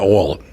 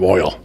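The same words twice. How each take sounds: First: It is said with a Southern US accent. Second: It is said with a standard American accent. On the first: "I called it oil" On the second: "instead of oil"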